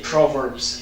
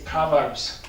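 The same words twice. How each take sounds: First: It has a standard English O vowel. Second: Ugandan-style accent, with an A sound instead of O. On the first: "they don't say proverbs" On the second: "they say proverbs"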